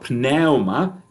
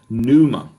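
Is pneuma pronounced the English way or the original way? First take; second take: original; English. First: The word is pronounced the original, non-English way. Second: The word is pronounced the usual English way.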